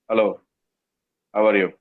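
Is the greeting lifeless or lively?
lifeless. The greeting sounds flat and lifeless.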